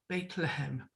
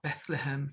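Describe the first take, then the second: First: The first syllable sounds like 'Beit'. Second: The first syllable sounds like 'Beth'. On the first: This is the Hebrew form of the name. "if you're in Jerusalem, they'll talk about Bethlehem" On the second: This is the English form of the name. "we talk about Bethlehem"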